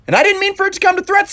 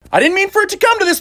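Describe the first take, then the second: First: Didn't leaned on, quick pace; stress on didn't. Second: "come" stressed, falling finish, fast. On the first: Threatening Spider-Man, quick with weight on didn't. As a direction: lean on "didn't" and rush the rest. Rewording the same threat line. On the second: Stepping the threat up, hitting come. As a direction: push "come" and let it fall. Same threat line, escalated. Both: Acted.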